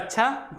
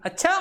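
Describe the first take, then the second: First: It is said as a calm, accepting agreement. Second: It is said with a tone of astonishment. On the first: The speaker agrees and is leaving. "ये स्वीकृति प्रदान करने के लिए" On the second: The speaker is amazed at what someone did. "विस्मय का भाव आएगा"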